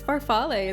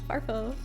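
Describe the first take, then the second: First: The word ends with a sounded final vowel. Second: The word ends without a final vowel sound. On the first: The speaker calls it right. "You gotta say the E" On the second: The speaker calls it wrong. "I don't know how to pronounce it correctly"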